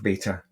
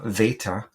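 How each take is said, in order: First: The word begins with a B sound. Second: The word begins with a V sound.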